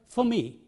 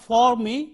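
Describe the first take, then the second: First: The word for has a reduced vowel. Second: The word for has a full vowel. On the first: The speaker calls it right. "but for me" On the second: The speaker calls it wrong. "Not for me"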